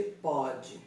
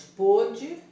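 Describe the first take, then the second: First: "pode" com ó aberto, como pód. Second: "pôde" com o fechado, lento e forte. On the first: ("pode" pronunciado com ó aberto) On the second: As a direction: diga "pôde" com ô fechado, bem devagar. ("pôde" com ô fechado e enfático) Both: Shown as a demonstration. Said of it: "diferente de pode".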